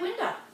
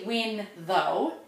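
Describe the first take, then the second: First: The words run together with a D sound. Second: The words are separate with a TH sound. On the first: "we throw it together and we cut off the T H and we pronounce it like a D" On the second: "Which is actually win though"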